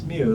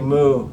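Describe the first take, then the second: First: The word sounds like a cat's mew. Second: The word sounds like a cow's moo. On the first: The speaker calls it right. "it's mu like a cat" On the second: The speaker calls it wrong. "don't say moo like a cow"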